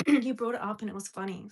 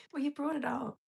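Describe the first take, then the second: First: "You brought it up" said out loud and louder, after clearing the throat; louder retort. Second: "Well, you brought it up" whispered, no voice; a sly whispered comeback. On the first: Repeating her comeback to the viewer out loud, louder. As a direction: say it full voice now, owning it. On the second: Answering a chat viewer who raised the topic, whispered. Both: Real, not acted.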